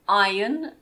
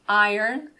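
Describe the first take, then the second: First: It is said with a British pronunciation. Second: It is said with an American pronunciation. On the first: "iron in British English" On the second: "iron in American English"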